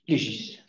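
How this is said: The word is said the Canadian way. "Et au Canada"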